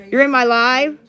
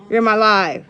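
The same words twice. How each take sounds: First: "You're in my live?" asked with a rising end, echoing the comment; questioning echo. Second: "You're in my live." stated with a falling end, as a fact; flat statement. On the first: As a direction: toss the viewer's words back as a question, rising on "live". Repeats a viewer's comment. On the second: Answers her own echo. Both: Real, not acted.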